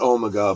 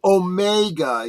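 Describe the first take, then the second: First: The word has the British pronunciation. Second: The word has a non-British pronunciation. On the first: "with the British pronunciation, it's it's Omega" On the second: "if you really want to call it Omega, you can"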